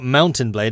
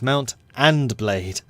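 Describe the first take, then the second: First: The middle is blended, sounding like 'mountain'. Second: The middle is said as separate 'mount and'. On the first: The speaker calls it wrong. "It's not Mountain Blade" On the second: The speaker calls it right. "it's Mount and Blade"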